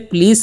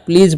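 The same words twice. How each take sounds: First: The word ends with an s sound. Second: The word ends with a z sound. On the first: The speaker calls it wrong. "इसे प्लीज नहीं पढ़ना है" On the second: The speaker calls it right. "एस ई का जो चरण यहाँ पर ज होता है"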